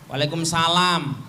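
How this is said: It is said in a cold, flat way. The wife is unwelcoming to her husband. The speaker calls it wrong. "jangan dingin"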